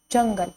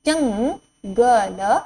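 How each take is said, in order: First: Said in the usual way. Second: जंगल drawn out slowly, rising end; slow teacher drill; slow sounding out. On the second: Shown as a demonstration. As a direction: stretch जंगल syllable by syllable. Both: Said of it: "word drill".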